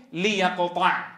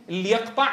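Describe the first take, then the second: First: ليقطع started with the lam given kasra, lia-. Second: ليقطع begun on a silent l, marked wrong; wrong sukun start. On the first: Teacher shows the correct start with a kasra lam. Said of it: "ترجع اللام لأصلها مكسورة فتقول". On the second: Teacher shows students the forbidden start on a silent lam. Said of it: "هل تبدأ بساكن؟ تقول". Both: Shown as a demonstration.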